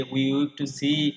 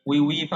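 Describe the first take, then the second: First: Very slow, drawn-out "we weep to see"; poem recitation. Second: Said in the usual way. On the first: Shown as a demonstration. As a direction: stretch each word as in recital. Recites quote before glossing it. (কবিতার line খুব ধীরে আবৃত্তি)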